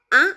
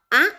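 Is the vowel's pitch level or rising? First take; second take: rising; rising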